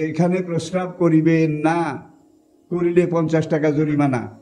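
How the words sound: The pause comes after the word 'না'.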